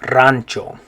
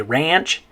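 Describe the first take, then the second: First: Rancho as RAHN-cho, rolled R; Spanish pronunciation. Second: Said in the usual way. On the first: Shown as a demonstration. Teacher models for learners, rancho said RAHN-cho. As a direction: trill the R in rancho, A as ah. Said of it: "In Spanish you say". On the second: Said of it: "in English you say ranch".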